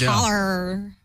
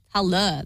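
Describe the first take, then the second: First: The word ends with an audible R sound. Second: The word ends in a vowel without R. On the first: The speaker calls it wrong. "not holler" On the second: The speaker calls it right. "you don't pronounce the R at the end"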